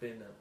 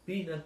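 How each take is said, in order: First: The first vowel is a closed 'e'. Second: The first vowel sounds like 'i'. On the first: "acaba sendo un E fechado" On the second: "poden comenzar pronunciando un I"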